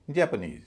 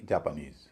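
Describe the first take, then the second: First: "जैपनीज" with heavy "jae", light "pa", long "neez"; correct pronunciation. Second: "जापानीज" with long "jaa" and long "paa"; wrong common pronunciation. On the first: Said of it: "पूरे शब्द का उच्चारण होगा". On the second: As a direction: say "जापानीज" as jaa-paa-neez, softer and lower. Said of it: "न कि जापानीज". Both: Shown as a demonstration.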